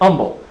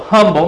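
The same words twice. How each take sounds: First: The word starts without an h sound. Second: The word starts with an h sound. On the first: "A friend of mine just can't pronounce the H. It's humble with a U" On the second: "But the English H has a sound, so humble may be the right word there"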